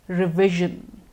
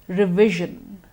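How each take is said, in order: The two takes are said the same way.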